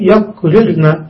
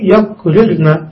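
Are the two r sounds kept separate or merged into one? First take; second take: separate; separate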